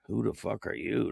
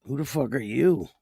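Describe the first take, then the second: First: Muttered chat quote. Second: Fuller, confrontational take on the line; mock challenge. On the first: Retold or imitated. Host reading a rude chatter's line, hushed and unimpressed. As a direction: read it under your breath, unimpressed. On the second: Host firing a chatter's rude question back, mock confrontational. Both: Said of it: "Don't come in here talking like that".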